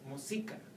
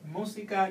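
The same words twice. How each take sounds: First: The stress is on the second syllable. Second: The stress is on the first syllable. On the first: It does not sound Spanish. The speaker calls it wrong. "If you take the tilde away, then you will have to say música. Música does not sound Spanish" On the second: It sounds Spanish. The speaker calls it right. "if you say música, you sound Spanish"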